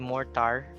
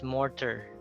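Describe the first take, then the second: First: The second syllable has a full, clear vowel. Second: The second syllable has a reduced schwa vowel. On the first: The speaker calls it wrong. "You don't say mortar" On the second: The speaker calls it right. "it's mortar"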